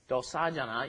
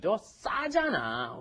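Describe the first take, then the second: First: The s sound in 싸 is plain and soft. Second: The s sound in 싸 is tense and strong. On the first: The speaker calls it wrong. "You don't" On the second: The speaker calls it right. "You have to do ... you've got that double shit in there"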